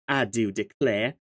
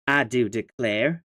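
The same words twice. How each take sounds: First: Put-on silly Southern accent. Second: Slow drawled Southern belle declare; a slow, mock-genteel Southern belle aside; silly Southern accent. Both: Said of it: "your silly accent".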